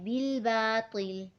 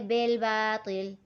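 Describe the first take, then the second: First: The first word has an 'i' vowel. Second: The first word has an 'e' vowel. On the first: The speaker calls it right. "नहीं हमें इसे पढ़ना है" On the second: The speaker calls it wrong. "अक्सर पढ़ते"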